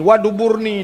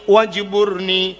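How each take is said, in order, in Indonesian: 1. Kata itu diucapkan dengan bunyi D. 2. Kata itu diucapkan dengan bunyi J.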